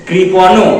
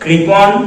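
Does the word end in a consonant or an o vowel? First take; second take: o vowel; consonant. First: The word ends with an o vowel. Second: The word ends on a bare consonant. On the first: The speaker calls it wrong. "বাচ্চারা ভুল করে না বলে কৃপণ" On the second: The speaker calls it right. "এখানে অকারান্ত উচ্চারণ হবে না"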